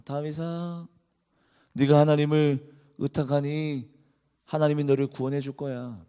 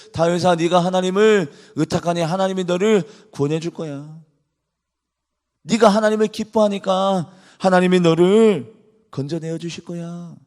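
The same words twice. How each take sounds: First: A quiet, understated sneer; mock David's faith lightly; sarcastic mocking. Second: Mocking reassurance, lightly voiced; sarcastic mocking. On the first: Mockers taunting David, mild sarcastic sneer. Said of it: "비꼬면서 이렇게 얘기합니다". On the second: People ridiculing David, light mocking sarcasm. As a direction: pretend to comfort him, with a sneer. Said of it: "비꼬면서 이야기를".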